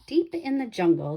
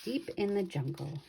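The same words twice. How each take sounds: First: The title again, bright and ringing; louder title. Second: The title again, dropped to a soft near-murmur; hushed title. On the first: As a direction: announce the title to start the story. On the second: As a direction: breathe the title softly, drawing them in. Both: Shown as a demonstration.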